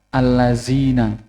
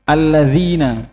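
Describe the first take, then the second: First: The middle consonant is a buzzing 'z' sound. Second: The middle consonant is a soft 'dh' sound. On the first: The speaker calls it wrong. "dibaca allazina" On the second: The speaker calls it right. "Kemudian alladzina dibaca"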